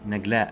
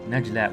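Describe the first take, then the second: First: The middle consonant is a hard G. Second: The middle consonant is a J sound. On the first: It is how the name was written. The speaker calls it wrong. "called uh, Nagla with a G" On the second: It is the official pronunciation. The speaker calls it right. "Najla with a J"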